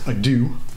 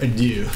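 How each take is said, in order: First: The word is said with a plain English sound. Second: The word is said with a French-style sound. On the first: The speaker calls it wrong. "not ado" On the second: The speaker calls it right. "it's a French word"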